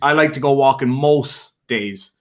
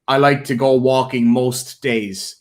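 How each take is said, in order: First: The T at the end of most is dropped. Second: The T at the end of most is pronounced. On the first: "He wouldn't put the T at the end" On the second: "he wouldn't say something like"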